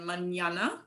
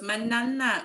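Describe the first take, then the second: First: The first n is said as a 'ny' sound. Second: The first n is said as a plain 'n'. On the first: The speaker calls it right. "you're going to get that ñ sound on the first end" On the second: The speaker calls it wrong. "they all say it wrong"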